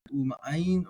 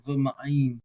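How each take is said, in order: First: "U ma'ayin" starting on an "oo" vowel; u reading. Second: "v ma'ayin" starting on a v consonant; v reading. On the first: Teacher showing how it might sound, u first. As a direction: begin "U ma'ayin" with "oo", no consonant. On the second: Teacher showing the alternative sound, v first. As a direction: begin "v ma'ayin" with a short "vuh". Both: Shown as a demonstration. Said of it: "it might sound a little different".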